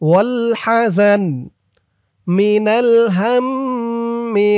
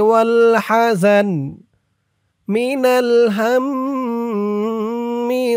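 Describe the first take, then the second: No difference in how they are said.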